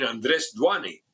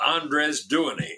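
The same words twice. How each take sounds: First: Andres Duany said the Spanish way; Spanish pronunciation. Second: Andres Duany said slowly the English way; anglicized name. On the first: Correcting the governor, "Andres Duany" in Spanish pronunciation. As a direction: say "Andres Duany" with Spanish vowels, stress on the second syllable of Andres. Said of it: "Ah, you mean". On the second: Governor naming his hire, "Andres Duany" in anglicized pronunciation. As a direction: say "Andres Duany" with plain English sounds, as an outsider would. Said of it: "yeah, whatever". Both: Retold or imitated.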